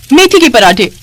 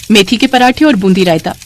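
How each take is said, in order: First: Higher, dismayed question; balking at fenugreek parathas; incredulous echo. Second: Said in the usual way. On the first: Acted. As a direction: repeat the dish in disbelief. Repeats the dish in disbelief.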